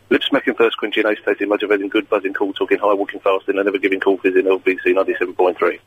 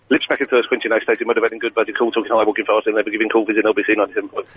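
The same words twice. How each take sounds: First: It is said at a fast speed. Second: It is said at a very fast speed.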